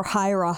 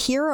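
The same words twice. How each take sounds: First: Hira said "HIGH-ra", like "high"; HIGH-ra pronunciation. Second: Hira said "HEE-ro", with an ee; HEE-ra pronunciation. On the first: Offering co-host the other option, Hira as HIGH-ra. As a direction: say Hira with a long i first syllable. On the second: Asking co-host how to say the name, Hira as HEE-ra. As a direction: say Hira with a long ee first syllable. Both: Shown as a demonstration. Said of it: "Is it Hira or Hira".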